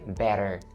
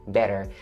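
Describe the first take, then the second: First: The middle consonant is a soft flap D. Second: The same.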